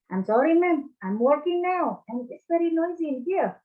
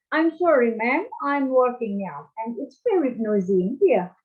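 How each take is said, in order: First: A light American accent, pitched higher; casual American phone apology. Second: Mock-polite British phone apology; British accent. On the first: Teacher demonstrating an American accent to the class, lightly done. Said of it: "Itu Amerika". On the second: Teacher demonstrating a British accent to the class, lightly done. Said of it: "Itu British". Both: Shown as a demonstration.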